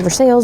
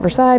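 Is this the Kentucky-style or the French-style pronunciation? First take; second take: Kentucky-style; French-style. First: It is pronounced the Kentucky way. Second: It is pronounced the French way. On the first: It names the city in Kentucky. "if you're in Kentucky, you say Versailles because that's the name of the city" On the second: It names the palace in France. "anywhere else in the world, you call it Versailles because that's where the palace is in France"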